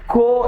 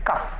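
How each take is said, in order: First: The word is said with an 'oh' vowel. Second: The word is said with an 'uh' vowel. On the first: The speaker calls it wrong. "COUGH കോ എന്ന് വായിച്ചു പോകും. പക്ഷെ അങ്ങനെ പറ്റില്ല" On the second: The speaker calls it right. "That is കഫ്"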